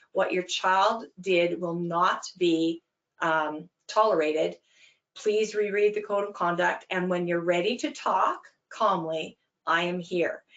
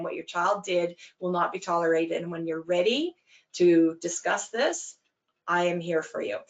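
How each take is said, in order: First: Calm, firm, deliberate statement; short and succinct. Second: Calm, firm, even statement; short and succinct. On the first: Coach answering an angry parent, steady and calm. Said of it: "You say it again, short and succinct". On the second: Coach repeating the line to the parent, steady and calm. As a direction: repeat it steadily, without rising to it. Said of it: "and you say it again". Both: Shown as a demonstration.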